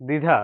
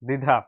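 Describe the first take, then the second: No difference in how they are said.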